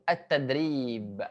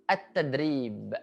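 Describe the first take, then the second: The two takes are said the same way.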